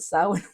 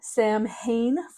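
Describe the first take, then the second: First: It is said as 'sow-in', unlike its letters. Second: It is said as 'sam-hane', following its letters. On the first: This is how the word is said aloud. "I will always call it Samhain when I speak it out loud" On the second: This is how the word looks when read. "Phonetically, that's what it looks like"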